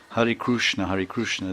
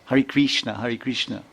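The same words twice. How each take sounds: First: Hare Krishna with a Kru sound, Krushna; Oriya-style Krushna; Oriya pronunciation. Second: Krishna with a clear Kri sound; Kri-style Krishna; Kri pronunciation. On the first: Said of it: "Like in Orissa, they say". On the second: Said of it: "a lot of people say Kri". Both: Retold or imitated.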